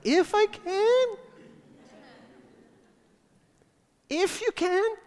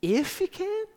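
First: High, slow squeaky incredulous question; squeaky high disbelief. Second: High squeaky disbelieving question; squeaky incredulous. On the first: Jesus echoing the father's doubt, squeaky and high. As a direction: let the voice crack upward, stretched out. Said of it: "his voice went up and got squeaky like mine". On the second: Jesus repeating the father's words, squeaky and high. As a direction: voice jumps way up in disbelief. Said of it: "his voice went up and got squeaky". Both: Acted.

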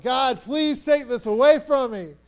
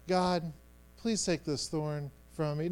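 First: Higher, louder acted begging; pleading. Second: Soft, lower, politely murmured prayer; nice polite prayer. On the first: Paul begging God to remove the thorn, urgently pleading. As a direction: implore with force, in real need of relief. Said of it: "he's pleaded with God three times". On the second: Acted. Man saying a nice prayer to God, politely soft. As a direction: say it as a mild, tidy little prayer. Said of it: "in this nice prayer".

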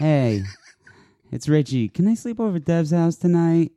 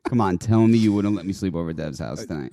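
First: High, wheedling ask to Mom; put-on high phone voice; high-pitched girlfriend voice. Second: Said in the usual way. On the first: Shown as a demonstration. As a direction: pitch it up to beg permission. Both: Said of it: "we could call that the girlfriend voice".

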